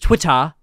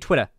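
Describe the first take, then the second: First: It is said in a heavily exaggerated accent. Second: It is said in a plain, normal accent. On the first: This is how he speaks now, faking it. "heavily uh, exaggerate the British accent" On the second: This is how he spoke before. "he literally just used to say Twitter"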